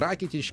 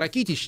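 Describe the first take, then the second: First: The stress falls on the first syllable. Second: The stress falls on a later syllable. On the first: The speaker calls it right. "ударение на первый слог" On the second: The speaker calls it wrong. "не Ракитич"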